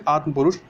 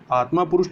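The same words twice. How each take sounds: First: आत्म पुरुष with short ending on atma; correct form. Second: आत्मा पुरुष with long aa after m; wrong form. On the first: Teacher corrects for learners, आत्म पुरुष without long aa. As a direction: say आत्म पुरुष as "aatm purush". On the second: Teacher rejects the error, आत्मा पुरुष with long "maa". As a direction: say आत्मा पुरुष as "aatmaa purush". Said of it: "आत्मा पुरुष नहीं". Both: Shown as a demonstration.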